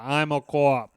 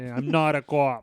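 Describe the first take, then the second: First: Mock Boston drawl on co-op, said kwop; imitating Leo's Boston vowels in "co-op"; Leo's Boston accent. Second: Slow mock Boston accent, "co-op" stretched; Leo's Boston accent, slower. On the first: Mocking the actor's film line in a Boston accent. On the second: Repeating the actor's line slower, mocking his Boston accent. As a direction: drag out the Boston "co-op" as Leo would. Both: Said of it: "he keys on a couple words like".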